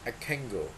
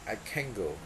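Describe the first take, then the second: First: The n in 'can' becomes ng before go. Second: The same.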